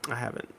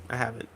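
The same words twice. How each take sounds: The two takes are said the same way.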